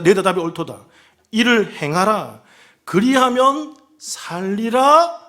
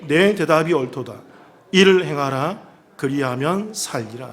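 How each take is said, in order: First: It is said with an ironic, challenging tone. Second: It is read plainly, without added feeling.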